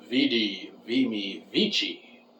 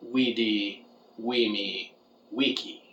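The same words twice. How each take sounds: First: It uses ecclesiastical Latin pronunciation. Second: It uses classical Latin pronunciation. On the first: The great, powerful dragons speak this way. "use ecclesiastical Latin and would say" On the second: A kobold speaks this way. "use classical Latin and pronounce it"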